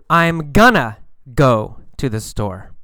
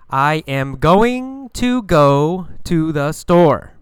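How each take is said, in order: First: Going to is reduced to gonna. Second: Going to is pronounced in full. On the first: "But in normal speaking, we use gonna" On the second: "In books, you learn going to"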